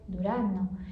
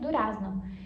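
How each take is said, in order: First: The z is not pronounced as a z. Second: The z is pronounced as written. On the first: This is how people say it in real life. "Na vida real você fala durar não" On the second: This is how it is taught in books. "Você sabe que é durazno"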